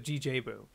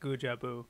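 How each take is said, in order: First: The first part is spelled out as letters. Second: The first part is said as one word. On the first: The speaker calls it wrong. "It's it's not just G J Club" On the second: The speaker calls it right. "it's like Guja Boo"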